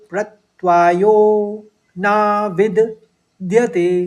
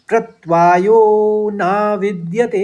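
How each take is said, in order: First: The phrase is said slowly, word by word. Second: The phrase is said quickly, all together.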